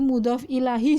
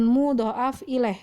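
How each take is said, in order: First: The second word ends with a h then i. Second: The first word has an extra vowel before f. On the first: "Apalagi mudhof ilahi juga bukan" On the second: "Bukan mudhoaf ilaih, bukan"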